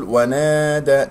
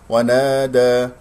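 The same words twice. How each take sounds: First: ونادى with the alif sound weakened; wrong alif sound. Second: ونادى with a full, open long alif; correct alif sound. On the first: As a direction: demonstrate the mistake, reducing the long alif in ونادى. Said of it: "تقلل صوت الألف، آه، احذر من هذا". (ونادى بتقليل صوت الألف) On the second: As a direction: sustain the alif in ونادى without reducing it. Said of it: "احذر من هذا". (ونادى بألف ممدودة كاملة الصوت) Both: Shown as a demonstration.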